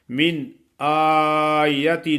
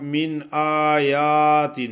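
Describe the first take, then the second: First: من آیت with only the alif long, yaa short; correct short yaa. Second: من آیات with the yaa wrongly stretched; teacher imitating the mistake, drawing out آیات; wrong long yaa. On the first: Teacher to students: correct model, آیت with short yaa. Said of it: "اس طرح پڑھنا ہے". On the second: Teacher mocks students' error, آیات over-lengthened. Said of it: "کچھ لوگ اس کو ایسے پڑھتے ہیں". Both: Shown as a demonstration.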